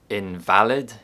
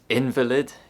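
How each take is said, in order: First: The stress is on the second syllable. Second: The stress is on the first syllable. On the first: It means incorrect or untrue. "Invalid is an adjective and it means incorrect or untrue" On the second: It refers to a sick person. "Invalid is a noun and it means a sick person or a hospital patient"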